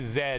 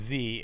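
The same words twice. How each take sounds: First: The letter is named the Canadian way. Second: The letter is named the American way. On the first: "we use Z" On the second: "you use Z"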